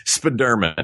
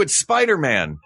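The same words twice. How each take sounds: First: "Spiderman" run together as spuh-DUR-mun; odd mispronunciation. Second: "Spider-Man" as SPY-der-man; usual pronunciation. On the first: Imagined creator insisting on his pronunciation, "Spiderman" as spuh-DUR-mun. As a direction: say "Spiderman" like a surname, stress on the middle. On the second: Fan corrects the inventor, "Spider-Man" as SPY-der-man. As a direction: correct him with a full "Spider" and a clear "Man". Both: Acted. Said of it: "not how you pronounce it".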